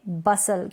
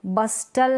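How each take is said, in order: First: बसल with no t; silent T. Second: बस्टल with t after s; T sounded. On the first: Teacher correcting the misreading, बसल without t. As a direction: say बसल as "bus-al". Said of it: "क्योंकि टी यहाँ पर". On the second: Teacher showing the misreading, बस्टल with t sounded. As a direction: say बस्टल as "bus-tal". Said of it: "नहीं पढ़ेंगे". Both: Shown as a demonstration.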